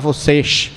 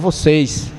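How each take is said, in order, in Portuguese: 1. É falada com sotaque regional pernambucano. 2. É falada com sotaque regional paraibano. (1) "Paraibano já não fala vocês" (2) "fala vocês"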